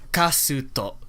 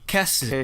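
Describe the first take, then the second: First: It has an ah vowel and ends in o. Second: It has an eh vowel and ends in u. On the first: "if I were to do it in like Japanese" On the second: "in uh, Korean it'd be kesutu"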